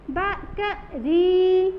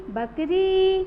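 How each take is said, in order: First: बकरी slowly in syllables, ब-क-रीii, री held loud; drawn-out final री. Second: बकरी run together with री held briefly; joined word, long री. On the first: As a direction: break up बकरी and stretch the री. (बकरी को तोड़कर, री लंबी खींचकर) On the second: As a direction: say बकरी as one word, lengthening री. (बकरी एक साथ, री पर जोर) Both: Shown as a demonstration. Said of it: "लंबा लेके बोलना है".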